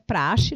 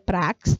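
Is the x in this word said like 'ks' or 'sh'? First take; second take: sh; ks. First: The x is said as a 'sh' sound. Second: The x is said as a 'ks' sound. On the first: The speaker calls it right. "a pronúncia é praxe" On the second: The speaker calls it wrong. "não é prax"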